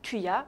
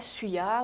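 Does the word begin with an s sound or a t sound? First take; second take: t sound; s sound. First: The word begins with a t sound. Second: The word begins with an s sound. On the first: The speaker calls it right. "il se prononce simplement « thuya »" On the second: The speaker calls it wrong. "non pas « suya »"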